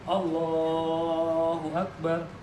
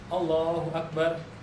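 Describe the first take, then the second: First: The phrase is long and drawn out. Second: The phrase is short and said quickly. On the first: The speaker calls it right. "panjangkan takbir sampai benar-benar ruku" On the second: The speaker calls it wrong.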